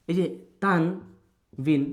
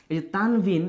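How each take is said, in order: First: এই যে তানবিন drawn out very slowly, word by word; slow emphasis. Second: Said in the usual way. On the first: Shown as a demonstration. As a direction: stretch এই যে তানবিন slowly so students catch it. (এই যে তানবিন খুব ধীরে টেনে বলা) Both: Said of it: "একটু মনোযোগ দিই".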